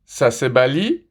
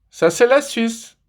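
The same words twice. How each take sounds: First: Said in the usual way. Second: «la Suisse» lancé plus haut et lentement; réplique appuyée. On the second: Shown as a demonstration. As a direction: ralentis et monte sur «ça c'est la Suisse». (chute triomphale sur «la Suisse») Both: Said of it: "Allez, encore une fois".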